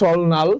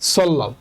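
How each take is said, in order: First: The middle consonant is an n sound. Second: The middle consonant is an l sound. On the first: The speaker calls it wrong. "উচ্চারণ ছিল হচ্ছে সলনাল" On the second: The speaker calls it right. "Rules অনুযায়ী এটা উচ্চারণ হবে সল্লাল"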